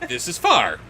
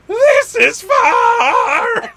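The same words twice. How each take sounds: First: It is said in a plain, neutral way. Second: It is said in a tired, exasperated way.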